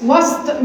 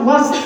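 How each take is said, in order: First: وسط said with a vowel on the سين, the wrong way. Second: وسط with the سين silent, no vowel on it; sukun on sin. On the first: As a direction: read وسط with a moving سين, as the mistake. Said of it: "وسط مش". (وسط بتحريك السين خطأ) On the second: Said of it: "وسط بتسكين السين". (وسط بتسكين السين) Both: Shown as a demonstration.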